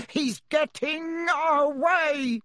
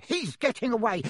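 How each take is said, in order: First: Furious uncle shouting, drawn out and high; roared. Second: Roared. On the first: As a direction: bellow it like an angry bull. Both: Acted. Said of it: "roared Uncle Vernon".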